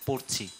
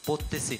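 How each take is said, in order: First: The word has two syllables, with no middle 'te'. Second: The word has three syllables, with a middle 'te'. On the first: The speaker calls it right. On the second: The speaker calls it wrong. "তোমার উচ্চারণটা ঠিক করো। পড়তেছি না"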